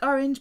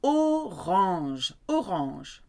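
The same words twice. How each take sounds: First: Said in the usual way. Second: Orange said the French way, oh-RAHNZH, slowly modelled; French accent. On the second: Shown as a demonstration. Teacher models the colour for learners, orange in French accent. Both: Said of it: "but you need your French accent".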